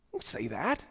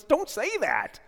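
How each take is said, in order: First: Lower, soft gentle repeat. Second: High, loud firm rebuke; the Lord rebuking. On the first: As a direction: say it again tenderly. Repeat, softer. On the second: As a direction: cut him off firmly. The Lord answering Jeremiah. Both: Acted.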